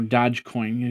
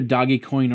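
First: The first word sounds like 'dodge', with a j sound. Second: The first word sounds like 'doggy', with a hard g. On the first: The name sounds like the verb to dodge. "or dodge coin, because if you can dodge a wrench" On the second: The name comes from the dog mascot. "it's either doggy coin"

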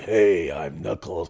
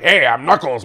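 First: The voice is deep and low. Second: The voice is light and high. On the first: This is how the character actually sounds. "But he's like" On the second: This is how the speaker expected the character to sound. "I thought he'd be like"

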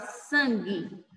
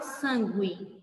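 First: No U sound is heard after the G. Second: A U sound is heard after the G. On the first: The speaker calls it right. "Você fala sangue" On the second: The speaker calls it wrong. "Você não fala sangue"

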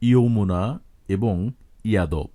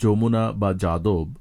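First: Each word begins with a 'y' sound. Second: Each word begins with a 'j' sound. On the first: This is the Sanskrit pronunciation. "সংস্কৃতে তা যথাক্রমে" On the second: This is the Bengali pronunciation. "বাংলায়"

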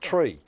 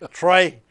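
First: The vowel is a long 'ee' sound. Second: The vowel is an 'ay' sound. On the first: "half the people call me Tree" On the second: "but he pronounced it Trey"

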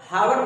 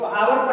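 First: The word begins with an h sound. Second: The word begins with a vowel sound. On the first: The speaker calls it wrong. "इसको हावर पढ़ते हैं या आवर पढ़ते हैं" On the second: The speaker calls it right. "इसको आवर पढ़ते हैं ना, ... आ वाला साउंड आ रहा है"

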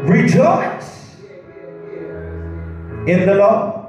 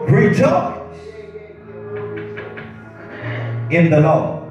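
First: It is read with strong, heartfelt feeling. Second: It is read in a plain, flat way.

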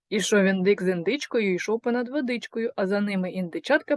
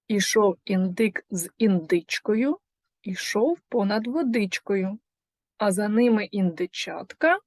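First: The tongue twister is said at a faster pace. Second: The tongue twister is said at a slower pace.

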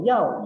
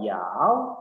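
First: The pitch falls sharply from high to low. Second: The pitch dips low and then rises. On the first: It means to want. "Ini sama-sama yao tapi karena nadanya" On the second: It means to bite. "Ini sama-sama yao tapi karena nadanya"

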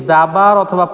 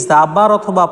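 Both takes have the same delivery.

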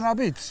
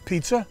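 First: It is said as abitz, in the local dialect form. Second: It is said as standard pizza, starting with p. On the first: "if you come from Federal Hill, you're having abitz" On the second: "So we're having pizza"

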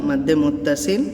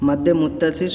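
Both takes have the same delivery.

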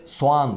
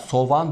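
First: The vowels join with no consonant between. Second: A v sound links the two vowels. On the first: The speaker calls it right. "ortadan kalkıyor ve soğan şeklinde telaffuz ediyoruz" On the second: The speaker calls it wrong. "Bazıları burada V'leşme var, ... Öyle bir şey yok"

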